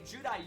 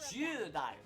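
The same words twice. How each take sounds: First: The first syllable is a plain short 'ju'. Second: The first syllable glides as 'jyuu' with soft vowels. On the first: This is how it is commonly said. The speaker calls it wrong. "We say Judai Yuki, but his name is not Judai Yuki" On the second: This is the actual name. The speaker calls it right. "closer to like J Y U U, and you say both of the U's sort of quietly"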